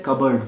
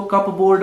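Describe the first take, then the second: First: कबर्ड said "KUB-erd", silent p; कबर्ड with a reduced second syllable; correct pronunciation. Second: कपबोर्ड said "cup-board", p sounded; कपबोर्ड with a full "board" ending; spelling pronunciation. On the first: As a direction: say कबर्ड with no p sound. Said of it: "अलमारी को बोलते हैं कबर्ड". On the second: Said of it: "इसको कपबोर्ड मत बोलना". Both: Shown as a demonstration.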